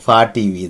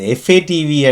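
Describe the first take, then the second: First: F and A are spoken as one syllable. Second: F and A are spoken as separate letters. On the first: The speaker calls it right. "அது ஃபா TV தான்" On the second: The speaker calls it wrong. "எஃப்ஏடிவி என்று சொல்கிறதில்லை"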